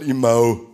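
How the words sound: It is said in an Upper Palatinate dialect accent. "der Oberpfälzer hat eine sogenannte Umlautverschiebung noch hinterhergehängt"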